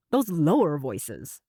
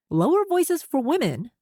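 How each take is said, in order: First: Low voice. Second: Said in the usual way. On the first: Shown as a demonstration. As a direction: lower and slow, a deep strong voice. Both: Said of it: "what about when we go lower?".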